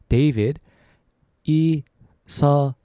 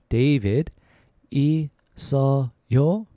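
No difference in how they are said.

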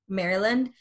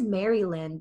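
First: Some syllables are reduced and run together. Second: Every syllable is pronounced fully and distinctly. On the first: The speaker calls it right. "Instead na sabi" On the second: The speaker calls it wrong. "talagang buong-buo yung pagka-pronounce ng Maryland"

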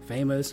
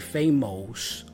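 First: The ending is a plain 'us' sound. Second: The ending is not a plain 'us' sound. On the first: The speaker calls it right. "once you learn us" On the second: The speaker calls it wrong. "as a Brazilian, my tendency would be to say famous"

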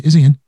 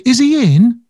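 First: The pitch falls at the end like a command. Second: The pitch rises at the end like a question. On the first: It demands to be put through. The speaker calls it right. "it's a command, not a question" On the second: It asks whether he is there. The speaker calls it wrong. "So I wouldn't say"

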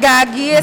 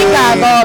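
First: The word ends with an 'ee' sound. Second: The word ends with an 'o' sound. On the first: It sounds like a posh Filipino speaker. The speaker calls it right. "You gotta say like gaggy" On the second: It sounds crass. The speaker calls it wrong. "You don't say gago because it's kind of like crass"

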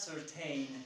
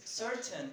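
First: The last syllable rhymes with the word rain. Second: The last syllable has a short reduced vowel. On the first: The speaker calls it wrong. "It is not certain" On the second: The speaker calls it right. "It is certain"

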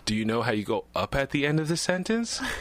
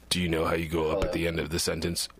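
First: The voice rises at the end. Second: The voice stays level at the end.

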